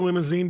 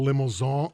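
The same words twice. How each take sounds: First: It is pronounced the plain English way. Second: It is pronounced the French way. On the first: This is how locals say it. The speaker calls it right. "We say limousine" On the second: It sounds pretentious. The speaker calls it wrong. "it's really hard to sell limousine in Wisconsin because we sound douchebag-ish"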